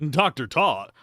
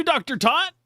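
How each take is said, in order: First: "Tot" said with a rounded "aw" and a falling tune; "Doctor Tot" with Tot as "tawt", settled; corrected name. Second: "Tot" said with a short "tah", as in "tot" misread; "Doctor Tot" with Tot like "taht"; wrong name reading. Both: Shown as a demonstration. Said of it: "it's Tot".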